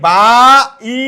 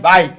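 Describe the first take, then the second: First: The two vowels are said as separate syllables. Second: The two vowels blend into one syllable. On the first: The speaker calls it wrong. "আমরা কি বলি বা ই এরকম না" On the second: The speaker calls it right. "এই আইটা দুইটা স্বরবর্ণ বাটে উচ্চারিত হচ্ছে একটার মতো"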